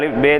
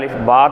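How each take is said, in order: First: The second letter name ends in an e vowel. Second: The second letter name ends in an a vowel. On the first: This is the Persian way of reading the letters. The speaker calls it wrong. "இது அலிஃப் பே தேன் படிக்கக்கூடாது" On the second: This is the proper Arabic way of reading the letters. The speaker calls it right. "அலிஃப் பா தான் தான் படிக்கணும்"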